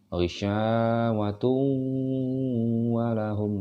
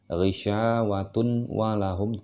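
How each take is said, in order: First: The n merges directly into the following w. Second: The n is pronounced clearly before wa. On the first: The speaker calls it right. "tapi langsung" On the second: The speaker calls it wrong. "tidak dibaca"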